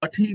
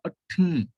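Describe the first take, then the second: First: ਅੱਠੀ said with an aspirated ṭh, no nasal dot; the wrong way, ਅੱਠੀ without the nasal sound; wrong reading. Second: ਅੱਠੀ with a nasal sound added after the ṭh; correct reading. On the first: Teacher shows students the wrong reading ਅੱਠੀ. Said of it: "ਅੱਠੀ ਨਹੀਂ ਪੜ੍ਹਨਾ". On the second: Teacher gives students the right reading ਅੱਠੀ. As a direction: nasalize ਅੱਠੀ as the bindi asks. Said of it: "ਠੱਠੇ ਨਾਲ ਬਿੰਦੀ ਵੀ ਲਾਵਾਂਗੇ". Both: Shown as a demonstration.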